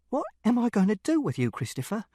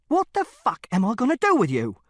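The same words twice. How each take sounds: First: High-pitched despairing question, dropping on the name; exasperated plea, level held back; exasperated father. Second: Loud, high, angry outburst; father at the end of his tether, shouting; furious exasperation. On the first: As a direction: throw up the question in frustration, not shouting. Exasperated father, first asking. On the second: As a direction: escalate into a raised-voice demand. Father's question escalates. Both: A narrator's reading.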